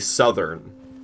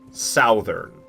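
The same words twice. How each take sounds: First: The first vowel sounds like 'uh'. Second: The first vowel sounds like 'ow'. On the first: The speaker calls it right. "I say Southern" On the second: The speaker calls it wrong. "not Southern because it's not pronounced"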